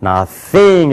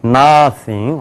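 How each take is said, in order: First: Nothing with THING stretched; stress on second syllable. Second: Nothing with a long stressed NO; stress on first syllable. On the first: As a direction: draw out the last syllable of nothing. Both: Shown as a demonstration. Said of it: "이렇게 읽어야 돼요".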